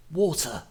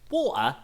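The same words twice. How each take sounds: First: Posh "Water." with a crisp t, wɔtə, slightly higher; light posh English impression, clear t in "Water."; posh English accent. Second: Cockney "Water?" with a dropped t, wɔlə, higher; light Cockney impression saying "Water?" as wɔlə; Cockney accent. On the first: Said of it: "a bit more of a posh accent". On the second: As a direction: mimic a Cockney character asking "Water?" with the t swallowed. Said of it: "who's, like, a Cockney".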